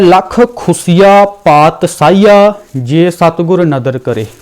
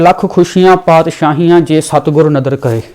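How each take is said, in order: First: Khushiyan is said with a plain 's' sound. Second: Khushiyan is said with an 'sh' sound. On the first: Countless things are snatched away. The speaker calls it wrong. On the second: Countless joys and kingdoms come. The speaker calls it right.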